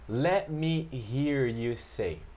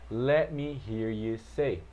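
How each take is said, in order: First: The phrase is said slowly and carefully. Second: The phrase is said faster and more quickly. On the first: "vou repetir aqui para você" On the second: "Aí você vai acelerando"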